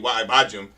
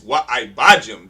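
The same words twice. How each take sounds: First: The 'wa' runs straight into the following word. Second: The 'wa' is emphasized and set apart. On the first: The speaker calls it wrong. "It ain't" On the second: The speaker calls it right. "to make that emphasis of the wa is separated from the rest of the word"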